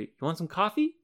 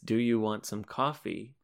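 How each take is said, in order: First: The words before 'coffee' are soft and linked. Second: Every word is said fully and separately. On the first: "The other words will become very linked together and much softer" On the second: "when you say the sentence"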